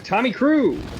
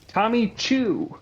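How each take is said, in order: First: The surname begins with a k-r sound. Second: The surname begins with a ch sound. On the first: The speaker calls it wrong. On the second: The speaker calls it right.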